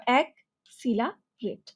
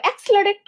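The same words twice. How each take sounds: First: "অ্যাক্সিলারেট" slowly in three parts: ak, sila, rate; split into syllables. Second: "অ্যাক্সিলারেট" run together as one long word; said as one unit. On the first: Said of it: "তুমি যখন এভাবে ভাগ করে নেবা". ("অ্যাক্সিলারেট" ভেঙে ধীরে, অ্যাক-সিলা-রেট) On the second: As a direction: say "অ্যাক্সিলারেট" whole, with no gaps between syllables. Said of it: "অনেক বড়ভাবে বললে". ("অ্যাক্সিলারেট" একটানা, না ভেঙে) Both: Shown as a demonstration.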